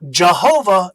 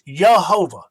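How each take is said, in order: First: The word begins with a J sound. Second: The word begins with a Y sound. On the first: The speaker calls it wrong. "It's not Jehovah" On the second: The speaker calls it right. "it's not a J sound, it's a Y"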